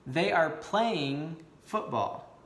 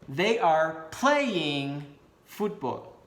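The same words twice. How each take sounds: First: It is said plainly, without extra emphasis. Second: It is said with strong, energetic emphasis.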